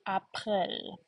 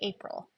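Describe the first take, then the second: First: It is pronounced with German sounds. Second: It is pronounced with English sounds. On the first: The speaker calls it right. "It's going to be April" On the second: The speaker calls it wrong. "I don't want to hear when we get to April that you say April"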